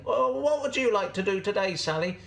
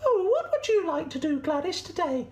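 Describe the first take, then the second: First: High, friendly goat voice; Gladys the goat. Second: Very high squeaky sheep voice; Sally the sheep. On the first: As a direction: offer the choice in a raised goat voice. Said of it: "Gladys would say". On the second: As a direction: ask politely in a tiny high squeak. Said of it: "Sally would say". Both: Acted.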